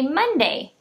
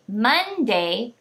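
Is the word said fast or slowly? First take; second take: fast; slowly. First: The word is said quickly, syllables run together. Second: The word is said slowly, syllables pulled apart. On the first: "I'll say the word fast" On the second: "I'll say it a little slower to help you hear where the syllable breaks"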